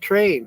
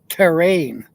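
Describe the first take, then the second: First: The word is squeezed into one syllable. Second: The word is said with two full syllables. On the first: "I was picking on Terry for how she pronounces things" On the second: "it's t- terrain"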